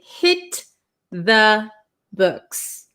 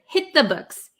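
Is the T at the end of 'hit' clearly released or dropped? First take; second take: released; dropped. First: It is said slowly with the T released. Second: It is said fast with the T dropped. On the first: "if you speak very slowly, you could say hit the books" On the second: "We're going to cut out this T right here"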